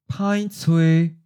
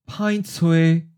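The two takes are said the same way.

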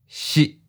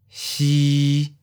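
First: The pitch is mid and cut short. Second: The pitch stays level at mid height. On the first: "mid stop. Fourth tone" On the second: "mid flat. Seventh tone"

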